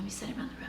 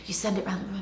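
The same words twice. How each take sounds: First: Much softer unvoiced repeat; hushed echo of the line; whisper. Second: Said in the usual way. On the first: Shown as a demonstration. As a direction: whisper the repeat to draw them in.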